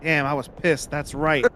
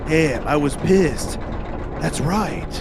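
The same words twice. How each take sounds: First: It is said in the speaker's natural voice. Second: It is said in a put-on character voice.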